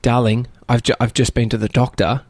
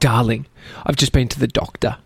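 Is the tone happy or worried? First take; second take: worried; happy. First: The voice sounds sad and worried. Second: The voice sounds happy and cheerful. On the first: The news from the doctor is bad. "which would make you alarmed" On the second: The news from the doctor is good. "she said it in a happy way, not a sad way"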